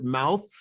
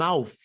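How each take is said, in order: First: Said in the usual way. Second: "mouth" said as "mouf"; final TH as F. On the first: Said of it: "like in the word". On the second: Shown as a demonstration. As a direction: end "mouth" on an F.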